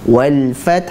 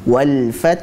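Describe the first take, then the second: The two takes are said the same way.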